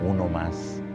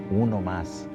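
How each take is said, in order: Both takes have the same delivery.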